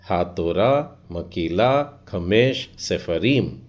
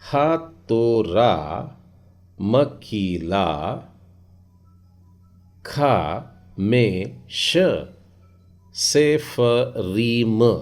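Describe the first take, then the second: First: It is read quickly, with the syllables run together. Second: It is read slowly, broken into separate syllables.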